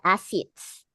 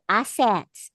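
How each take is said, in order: First: Assets with a hard i in the last syllable; Australian assets. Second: Said in the usual way. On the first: Shown as a demonstration. Teacher imitating Australians, assets ending in "its". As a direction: say assets as "ass-its". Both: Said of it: "Eh, sasabihin nila".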